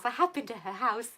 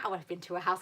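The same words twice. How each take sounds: First: Emphatic have in I have been to her house; stress on have. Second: Said in the usual way. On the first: Real, not acted. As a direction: have pushed and a little louder.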